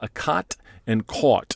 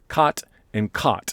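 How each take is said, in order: First: The two vowels sound clearly distinct. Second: The two vowels sound nearly identical, merged.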